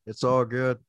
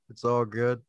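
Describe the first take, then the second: No difference in how they are said.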